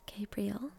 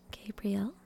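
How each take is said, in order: Both takes have the same delivery.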